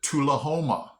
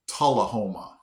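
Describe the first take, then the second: First: Tullahoma said TOO-la-HOH-ma; guessed pronunciation. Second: Tullahoma said TAH-la-HOH-ma; actual pronunciation. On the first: His guess at the next town, Tullahoma as TOO-la-HOH-ma. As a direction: start Tullahoma with an OO sound, TOO. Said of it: "I would have pronounced it". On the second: Teaching the actual name, Tullahoma as TAH-la-HOH-ma. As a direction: start Tullahoma with an open AH, lower in pitch. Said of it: "it's actually pronounced". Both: Shown as a demonstration.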